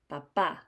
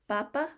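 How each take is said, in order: First: The stress is on the last syllable. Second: The stress is on the first syllable. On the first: It means father. "when a vowel has an accent, ... the vowel sound is stronger. ... Papa is the word for father" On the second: It means potato or the Pope. "Papa could be a potato or the Pope"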